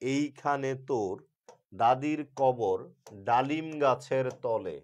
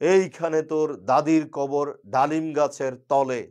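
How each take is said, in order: First: It is recited in an even, metered rhythm. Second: It is recited in a loud, speech-making tone. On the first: The reciter follows the poem's meter. The speaker calls it right. "কবর কবিতার প্রথম লাইনটা হচ্ছে" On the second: The reciter may know nothing about meter. The speaker calls it wrong. "রাজনীতিবিদ শুরু করলো এই কবিতা"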